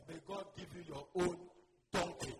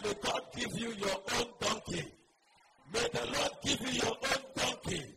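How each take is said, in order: First: Said in the usual way. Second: Preacher calling a blessing over the congregation; forceful blessing. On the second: Real, not acted. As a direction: proclaim the blessing loudly.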